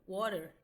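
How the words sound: It is said with an American English accent. "water do inglês americano"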